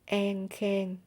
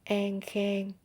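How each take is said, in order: First: It is said in a Southern Vietnamese accent. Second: It is said in a Southern Vietnamese accent.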